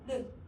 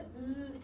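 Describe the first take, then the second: First: The tongue taps once for a brief sound. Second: The tongue stays put for a long sound. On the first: "혀끝을 붙였다가 떼는 르" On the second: "붙여서 소리 계속 내고 있거든"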